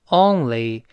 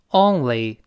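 The two takes are said the same way.

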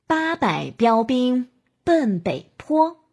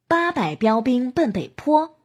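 First: It is spoken at a slow pace. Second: It is spoken at a moderately quick pace. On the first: "我们可以由慢到快。" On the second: "加快速度。"

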